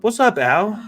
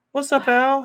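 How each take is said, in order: First: Loud rising hey there; plain loud hello; called-out greeting. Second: Much higher cartoonish squeak; high-pitched pretend buddy voice; squeaky silly voice. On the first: Real, not acted. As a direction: call it across the room. Calling out a greeting to Al. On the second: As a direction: answer as a goofy little character. Answers himself in squeaky voice.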